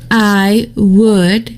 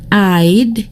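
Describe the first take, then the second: First: Both words are said in full, unreduced. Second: The two words merge into one short syllable.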